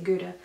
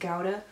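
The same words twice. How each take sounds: First: The word is given its American pronunciation. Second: The word is given its German pronunciation. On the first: This is how it is said in the States. The speaker calls it wrong. "in the States we would always say Gouda" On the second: This is how it is said in Germany. The speaker calls it right. "in German it's pronounced Gouda"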